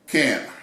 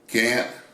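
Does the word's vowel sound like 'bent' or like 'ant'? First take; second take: bent; ant. First: The vowel sounds like the e in bent. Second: The vowel sounds like the a in ant. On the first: It cannot happen because it won't work that way. "Kent is really the proper pronunciation" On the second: It won't happen because the speaker refuses to do it. "some people say can't"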